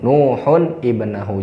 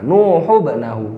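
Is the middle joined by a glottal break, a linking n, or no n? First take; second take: linking n; no n. First: An n sound links smoothly into the next word. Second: The n sound is dropped between the words. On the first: The speaker calls it right. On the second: The speaker calls it wrong.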